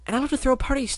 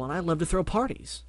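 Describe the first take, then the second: First: Much higher and louder, bubbly; Pinkie voice. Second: Barry Bubble. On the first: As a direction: squeal it out like Pinkie. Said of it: "Pinkie answers". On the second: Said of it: "Barry introduces himself". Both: Acted.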